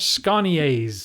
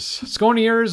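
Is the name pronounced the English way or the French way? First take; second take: French; English. First: The name is said with French pronunciation. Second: The name is said with English pronunciation.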